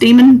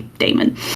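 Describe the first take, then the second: First: The first vowel sounds like 'dee'. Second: The first vowel sounds like 'day'. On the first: "it was actually pronounced demon" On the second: "how we naturally say daemon"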